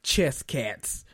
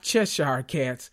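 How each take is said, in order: First: The first word is clipped to one syllable, 'chess'. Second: The first word is said in full, 'Cheshire'. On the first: This is how a relative from down south says it. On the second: This is the standard form of the word. "not Cheshire cats"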